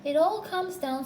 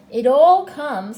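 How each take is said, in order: First: High, mildly cross grumble; understated high petulance. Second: Slow, very loud reproof; forceful, drawn-out scolding; stern. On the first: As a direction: complain peevishly in a raised pitch. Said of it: "said Pooh crossly". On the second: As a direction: lay down the law, stretching the words. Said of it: "said Rabbit sternly". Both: A narrator's reading.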